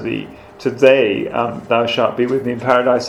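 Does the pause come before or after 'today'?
before. The pause comes before the word today. Paradise will be reached on this same day. The speaker calls it right. "where the verse says"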